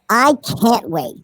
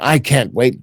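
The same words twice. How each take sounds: First: It is said in a put-on Karen voice. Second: It is said in the reader's normal voice.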